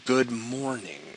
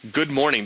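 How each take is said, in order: First: It is said in an ironic, sarcastic tone. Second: It is said in a plain, sincere tone. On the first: The greeting means something else entirely. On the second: The greeting is meant literally.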